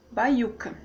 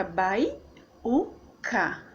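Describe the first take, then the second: First: Said in the usual way. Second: "bai-u-ca" slowly in three beats; syllable by syllable. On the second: Shown as a demonstration. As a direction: pause between bai, u and ca. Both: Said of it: "Aí fica".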